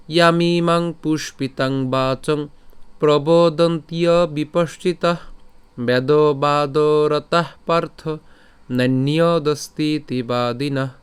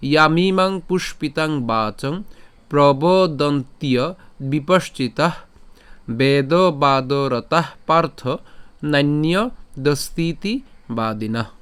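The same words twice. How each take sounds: First: Slow sung recitation on steady held notes; melodic shloka chant. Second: Measured Sanskrit recitation, word by word; slow pronunciation model. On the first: Teacher shows the verse with a tune, slow melodic chant. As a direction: chant it tunefully, sustaining the long vowels. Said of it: "আমরা যদি সুর করে পাঠ করি". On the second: Teacher goes from the start again, slow careful recitation. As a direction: draw out long vowels, pausing between phrases. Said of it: "আমি যদি আবার প্রথম থেকে বলি". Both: Shown as a demonstration.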